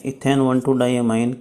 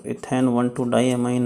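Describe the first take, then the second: First: Name repeated very slowly, syllable by syllable; "ethane one two diamine" drawn out, rising on "two"; slow dictation. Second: Each word spelled out slowly for notes; "ethane one two diamine" read slowly, word by word; slow dictation. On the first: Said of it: "जो E N है". (बहुत धीरे, शब्द-शब्द दोहराते हुए) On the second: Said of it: "बता देता हूँ आपको कि ई एन क्या है". (धीरे-धीरे लिखवाते हुए) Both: Shown as a demonstration.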